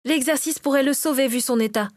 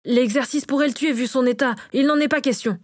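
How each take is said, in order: First: Higher voice countering with "sauver"; retort. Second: Higher-pitched, insistent objection; firm refusal. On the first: Natacha contradicts her husband's refusal, lifted retort. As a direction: answer back with "sauver", in a raised register. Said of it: "rétorqua-t-elle". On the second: Bénédicte says the exercise could kill him, firm refusal. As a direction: refuse outright with a lifted, insistent voice. Cook refuses a dangerous procedure. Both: A narrator's reading.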